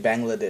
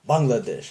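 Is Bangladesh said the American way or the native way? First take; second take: American; native. First: It is said with an Americanized pronunciation. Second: It is said with the native pronunciation. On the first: The speaker calls it wrong. "we would Americanize it into Bangladesh" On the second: The speaker calls it right. "authentic pronunciation"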